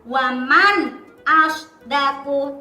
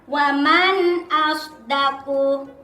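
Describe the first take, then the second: First: The phrase is said with a short break inside. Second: The phrase is said smoothly without a break. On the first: The speaker calls it wrong. "Atau sakta, ... tidak boleh" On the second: The speaker calls it right. "harus dibaca jelas"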